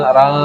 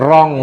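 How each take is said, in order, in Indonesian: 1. Vokal sebelum nasal terdengar seperti a. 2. Vokal sebelum nasal terdengar seperti o. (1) "tapi rang rang" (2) "Bukan bukan rong nggih"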